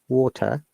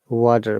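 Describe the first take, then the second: First: The T is strong and there is no R. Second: The T is a soft D-like flap. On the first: "no R sound, T strong" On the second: "The T sounds like D"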